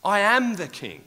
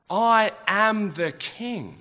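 First: "am" hit hard, loud and higher; stress on am. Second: "I" held long, slow and loud, higher; stress on I. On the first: Jesus insisting to his mockers, stress on "am". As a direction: punch "am" in "I am the king". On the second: Jesus declaring his kingship to mockers, stress on "I". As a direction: lean hard on "I" in "I am the king". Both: Acted. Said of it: "raging inside of me".

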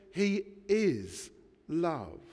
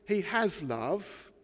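First: "is" drawn out and emphasised, then falling; slow, weighty emphasis on "is"; stress on IS. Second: Slow line with emphasis on "has"; "has" stressed, ending on a rise. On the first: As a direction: hold the word "is", then drop onto love. Corrects "has" to "is. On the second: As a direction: lean on the word "has", voice left hanging up. Contrasts "has" with "is. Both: Shown as a demonstration.

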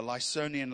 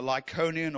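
First: Lysonian with an S sound in the middle; Lysonian with soft C. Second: Lycaonian with a K sound in the middle; Lycaonian with hard C. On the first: Preacher offers the other reading of a language name, Lysonian with an S sound. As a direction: say Lysonian as "lye-SOH-nian". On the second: Preacher offers one reading of a language name, Lycaonian with a K sound. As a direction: say Lycaonian as "lye-KOH-nian". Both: Shown as a demonstration. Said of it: "Lycaonian or the Lysonian".

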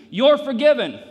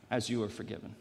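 First: "You're" punched high and loud; stress on YOU'RE. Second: Soft, low delivery leaning on "As"; stress on AS. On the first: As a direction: hit "You're" hard, pitched way up. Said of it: "That's the wrong place to emphasize". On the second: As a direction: set "As" first and let the rest fall away. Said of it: "the correct place to emphasize it is?". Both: Shown as a demonstration.

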